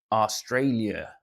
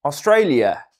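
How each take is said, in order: First: Slow, botched Aussie try at Australia; bad Australian accent. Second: Loud, proud Aussie Australia; Australian accent. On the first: Streamer tries an Aussie accent for Australian viewer, clumsy. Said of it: "that's not good accent". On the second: Pretend. Streamer retries Aussie accent and nails it, loud. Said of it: "That's it".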